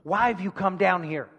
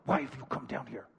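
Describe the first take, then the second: First: It is read at a normal speaking volume. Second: It is said quietly, almost silently.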